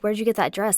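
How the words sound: It sounds mean and mocking.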